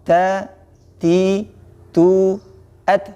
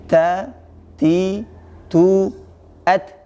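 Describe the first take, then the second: Both takes have the same delivery.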